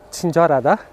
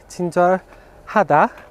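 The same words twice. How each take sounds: First: The word is said fast with sounds blurred together. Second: The word is said slowly with every sound clear.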